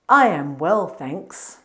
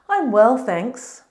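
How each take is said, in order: First: I am is said as two full words. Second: I am is contracted into one syllable. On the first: The speaker calls it wrong. "It sounds very unnatural if we say" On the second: The speaker calls it right. "we usually use the short form, I'm"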